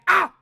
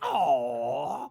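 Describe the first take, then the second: First: The 'ah' is cut short and sharp. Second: The 'ah' is drawn out long and warm.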